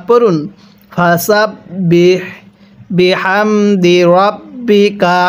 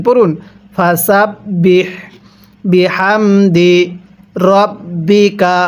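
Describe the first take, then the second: The two takes are said the same way.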